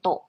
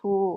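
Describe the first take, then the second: First: The vowel is a short 'o' sound. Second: The vowel is a long English-style 'oo'. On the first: The speaker calls it right. "จะกลายเป็นโตะทันที" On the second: The speaker calls it wrong. "จะไม่อ่าน"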